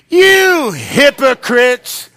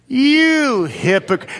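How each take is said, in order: First: It is said forcefully, with strong conviction. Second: It is said plainly, without much force. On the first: "Now say it like you mean it" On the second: "I want you to say that with me"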